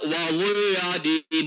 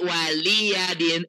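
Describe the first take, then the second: First: The l sound is heavy and full. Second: The l sound is light and thin. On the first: The speaker calls it wrong. "Jadi bunyinya nggak waliyadin" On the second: The speaker calls it right. "tapi waliyadin"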